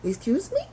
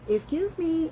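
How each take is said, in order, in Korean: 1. 날카롭고 공격적인 말투로 말해요. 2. 공손하고 가벼운 말투로 말해요. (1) "뭐라 그랬니 너? ... 공격성까지 나타낼 수 있다" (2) "지나가다가 실례합니다"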